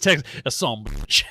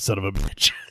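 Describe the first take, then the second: First: It is said in a Texas accent. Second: It is said in a plain, neutral accent.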